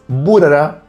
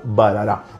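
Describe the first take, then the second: First: The first vowel sounds like 'oo'. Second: The first vowel sounds like 'ah'. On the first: This is how the brand asks for its name to be said. The speaker calls it right. "que justamente es Burara" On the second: This follows the written spelling of the name. The speaker calls it wrong. "y no Barara"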